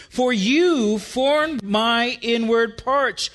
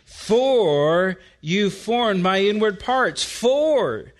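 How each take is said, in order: First: YOU raised and drawn out; slow, deliberate verse with emphatic "you"; stress on YOU. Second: FOR drawn out, then repeated alone; stress on FOR. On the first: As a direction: hit "you" emphatically, slow over the whole phrase. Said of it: "stands rather emphatic in Hebrew". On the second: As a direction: set off "For" as the key word, slowly. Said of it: "Note the first word". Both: Shown as a demonstration.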